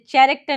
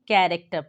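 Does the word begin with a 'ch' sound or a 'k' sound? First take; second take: ch; k. First: The word begins with a 'ch' sound. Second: The word begins with a 'k' sound. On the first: The speaker calls it wrong. "इसे चैरेक्टर नहीं" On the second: The speaker calls it right. "बल्कि कैरेक्टर पढ़ते हैं"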